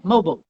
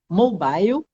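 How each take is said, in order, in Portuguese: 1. É pronunciada com sotaque norte-americano. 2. É pronunciada com sotaque britânico. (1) "no Brasil, o pessoal fala mais mobile" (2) "que é a pronúncia em ingle- em inglês dos ingleses e da Austrália"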